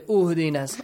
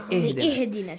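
First: The word begins with a u vowel. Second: The word begins with an i vowel. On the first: The speaker calls it wrong. "Do not say uhdinas" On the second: The speaker calls it right. "Say ihdinas"

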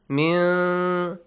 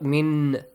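First: The n sound is hidden, not fully pronounced. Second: The n sound is pronounced clearly and fully. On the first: The speaker calls it right. "hidden, noon sound" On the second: The speaker calls it wrong. "Clearly do not say the noon sound"

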